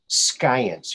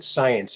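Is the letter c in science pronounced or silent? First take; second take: pronounced; silent. First: The word is said with the c sounded. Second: The word is said with the c silent. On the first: "I always like to pronounce the silent letters, so I say science" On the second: "I don't pronounce it science"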